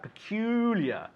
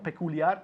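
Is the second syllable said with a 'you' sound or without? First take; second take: with; without. First: The second syllable has a clear you sound. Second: The second syllable lacks a clear you sound. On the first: The speaker calls it right. "You. You" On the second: The speaker calls it wrong. "Not peculiar"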